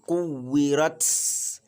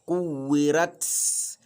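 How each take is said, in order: Both takes have the same delivery.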